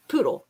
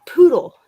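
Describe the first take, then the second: First: A hint of a frail father saying Poodle; dying father's single word. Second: Poodle said louder and higher, falling; dad insisting, Poodle louder the second time; insistent repeat. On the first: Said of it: "he goes". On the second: Retold or imitated. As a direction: repeat the word Poodle firmly so it lands. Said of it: "He goes".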